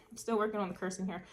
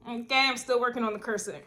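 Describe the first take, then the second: First: Softer and faster; quick quieter aside. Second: Said in the usual way. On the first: Real, not acted. Repeats her note on cursing to viewers, softer and quicker. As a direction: mutter it as a throwaway.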